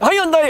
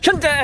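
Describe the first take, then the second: First: The name begins with a 'high' sound. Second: The name begins with a 'hyun' sound. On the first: This is how British commentators say the name. The speaker calls it wrong. "영국 사람들은 현대를 하이언다이라 그러거든요" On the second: This is the name as the company itself says it. The speaker calls it right. "야 우리 현대야"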